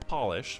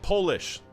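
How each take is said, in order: First: The first vowel sounds like 'pot'. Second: The first vowel sounds like 'pole'. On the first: It names a shine or coating. The speaker calls it wrong. "not polish" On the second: It names something from Poland. The speaker calls it right. "It's capital P. That makes it Polish"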